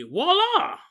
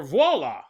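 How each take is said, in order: First: Voila high and loud, said wah-lah; showy voila. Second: Voila said vwah-lah, plain pitch; proper voila. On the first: Comedian revealing the plastic, high showy voila. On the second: Comedian correcting his own pronunciation, plain voila. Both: Shown as a demonstration. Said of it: "depending on your pronunciation".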